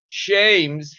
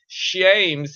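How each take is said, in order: First: The name begins with an 'sh' sound. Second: The name begins with an 'sh' sound.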